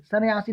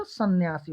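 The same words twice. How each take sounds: First: सन्यासी with a single light n; wrong pronunciation. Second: सन्यासी with a held double n, "san-nyasi"; correct pronunciation. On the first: Teacher showing students the wrong form, mispronounced. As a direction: say सन्यासी loosely, no doubled n. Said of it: "नहीं होता". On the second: Teacher giving students the right form, carefully pronounced. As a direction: lean on the nn in सन्यासी. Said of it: "होता है". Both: Shown as a demonstration.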